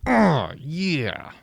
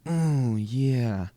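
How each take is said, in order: First: Put-on [name] accent oh yeah, higher and louder; [name]-style oh yeah. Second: Smooth, easy lightly voiced [name]; [name]'s suave oh yeah. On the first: Comedian contrasting [name]'s accented oh yeah. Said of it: "But not with a accent like that". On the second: Comedian imitating [name]'s suave oh yeah. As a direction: croon it like a ladies' man. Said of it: "[name] had more like".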